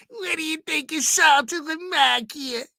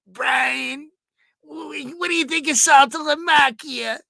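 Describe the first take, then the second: First: High, strained caller voice; Ralph impression. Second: High, loud caller voice; Ralph impression. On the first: Host replaying Ralph's famous sound bite, pitched high. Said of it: "greatest sound bites of all time". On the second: Host imitating Ralph calling into the show, high and excited. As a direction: mimic Ralph grilling Brian, pitched way up. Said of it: "Ralph would be calling out".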